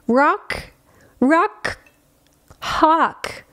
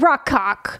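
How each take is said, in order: First: The name is said slowly and clearly. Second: The name is said fast and run together.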